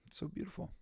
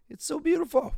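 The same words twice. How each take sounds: First: Soft, tearful and high; barely holding back tears; overwhelmed and whispering through tears; choked softly. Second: High, loud, breaking with tears; overcome, voice cracking upward; crying out how beautiful it is; tearful cry. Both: Real, not acted. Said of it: "made me get all misty-eyed".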